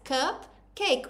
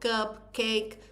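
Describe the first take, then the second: First: It is said smoothly in a natural voice. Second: It is said in a robotic, syllable-split voice.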